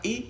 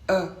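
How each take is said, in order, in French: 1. La voyelle est celle entendue dans 'les'. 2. La voyelle est celle entendue dans 'le'. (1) "surtout pas E parce qu'on va confondre avec le pluriel" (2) "il faut bien le prononcer E"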